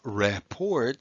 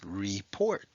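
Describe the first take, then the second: First: The first syllable is closed with a short vowel. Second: The first syllable is open with a long vowel. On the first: The speaker calls it wrong. "It's not report" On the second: The speaker calls it right. "it's report"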